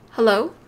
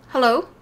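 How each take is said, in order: Both takes have the same delivery.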